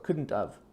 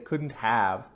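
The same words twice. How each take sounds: First: Said quickly, with 'have' reduced to 'of'. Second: Said slowly, with 'have' pronounced in full. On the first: "in fast English conversation, you're going to hear the of sound" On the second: "if you slow down, we'll say"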